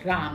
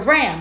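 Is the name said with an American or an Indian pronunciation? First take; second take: Indian; American. First: The name has an Indian pronunciation. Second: The name sounds like the English word ram. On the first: This is how the person says his own name. "That's like the Indian way of saying it" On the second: This is how others say it, like the truck. "like Ram"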